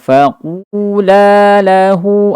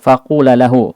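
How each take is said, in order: First: The final vowel of faqula is held long. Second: The final vowel of faqula is cut short. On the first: The speaker calls it right. "ada alif berarti dua harakat" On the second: The speaker calls it wrong. "terdengar tidak ada alifnya padahal di sini dua"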